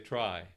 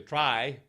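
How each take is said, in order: First: The vowel is narrow, as in normal speech. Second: The vowel is opened wide and spread. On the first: The speaker calls it right. "you just say try" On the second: The speaker calls it wrong. "you don't say try"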